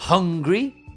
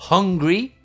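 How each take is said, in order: Both takes have the same delivery.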